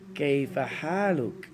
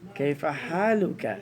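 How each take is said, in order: First: The first word begins with a 'k' sound. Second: The same.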